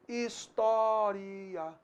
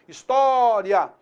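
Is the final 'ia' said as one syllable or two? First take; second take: two; one. First: The final 'i' and 'a' are split into two syllables. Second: The final 'ia' glides together as one syllable. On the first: "ele pode ser entendido também como um hiato" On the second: "aquilo que era um ditongo, história, ditongo crescente"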